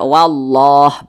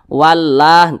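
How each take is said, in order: First: The l and a sound heavy and thick. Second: The l and a sound light and thin. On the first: "karena dia ditebalkan ya, maka dibaca wallah begitu" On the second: "seperti tulisan yang ada di bawah"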